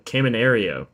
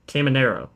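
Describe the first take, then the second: First: The name ends with an 'ario' sound. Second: The name ends with an 'ero' sound. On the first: The speaker calls it wrong. "Why do I say Caminario? That's like not even close" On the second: The speaker calls it right. "Caminero. Sorry"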